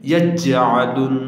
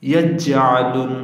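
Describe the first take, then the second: Both takes have the same delivery.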